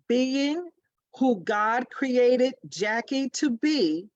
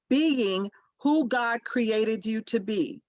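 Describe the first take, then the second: First: It is said slowly. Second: It is said at a normal pace.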